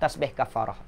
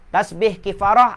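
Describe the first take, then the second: First: The second word's first vowel sounds like 'a'. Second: The second word's first vowel sounds like 'i'. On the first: This is the original Arabic form. "sebutan asalnya ialah kafarah" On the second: This is the common local usage. "orang orang Melayu kita kan, ha, dia dah selalu sebut kifarah"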